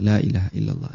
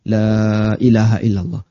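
First: The vowels are short and the phrase is quick. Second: The long vowels are stretched and the phrase is slow. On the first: "dalam waktu yang cepat, ... Cuman pendek aja" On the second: "Kita enggak baca ... Kan tidak seperti itu praktiknya"

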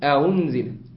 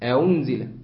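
The two takes are said the same way.

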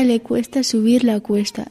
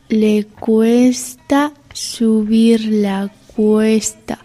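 First: It is spoken at a normal pace. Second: It is spoken at a slow pace.

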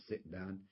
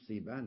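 First: The middle is said with a glottal stop. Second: The middle is said without a glottal stop. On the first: This is the Medina form. "لا تقول صئبان" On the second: This is the Meccan form. "قريش تقول صيبان"

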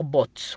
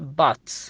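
First: The vowel sounds like oo. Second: The vowel sounds like ah. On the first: The speaker calls it wrong. "ما تنطق بوت" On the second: The speaker calls it right. "تنطق بات"

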